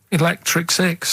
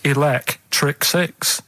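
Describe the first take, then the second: First: "Electric Six" said slowly with "elec" stressed; leaning on "elec" to show the pun; stretching "elec". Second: "Electric Six" said slowly, split into "elect" and "Six"; drawing out "Electric Six" as a pun on "elect"; spelt-out Electric Six. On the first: Explaining the pun to a sceptical co-host, "elec" stressed. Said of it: "elec-, elec". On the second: Playing the clue answer to his co-hosts, drawn out as "elect" plus "Six". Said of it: "don't say it like that". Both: Shown as a demonstration.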